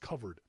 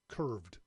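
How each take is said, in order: First: The name is said as two syllables. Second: The name is said as one syllable. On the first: The speaker calls it right. "It's covered" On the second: The speaker calls it wrong. "I kept saying it wrong on last week's show. I kept calling it"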